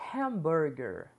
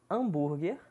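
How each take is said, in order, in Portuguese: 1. Ela é pronunciada com sons do inglês. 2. Ela é pronunciada com sons do português brasileiro. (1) "a pronúncia correta" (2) "pronúncia entre aspas, abrasileirada"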